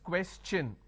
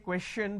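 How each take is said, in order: First: The ending is said with a 'ch' sound. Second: The ending is said with a 'sh' sound. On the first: The speaker calls it right. "the T I O N becomes ch, n. So it becomes question" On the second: The speaker calls it wrong. "I can't say question because T I O N is sure sound"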